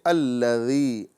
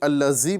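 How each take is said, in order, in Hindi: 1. बीच का व्यंजन 'dh' ध्वनि है। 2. बीच का व्यंजन 'z' ध्वनि है। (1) "बल्कि अल्लज़ी" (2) "ना ही अल्लज़ी पढ़ना है"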